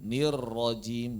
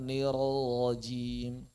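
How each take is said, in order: First: Slow "Nir rajim", trilled RR joined; correct double R. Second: Slow "nir rajim" with a loose stretched R; wrong released R. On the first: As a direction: land straight from R to R in "Nir rajim". ("Nir rajim" benar, R rapat bergetar) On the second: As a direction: let the R glide away in "nir rajim". ("nir rajim" keliru, R dilepas dulu) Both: Shown as a demonstration. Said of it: "bukan nir rajim".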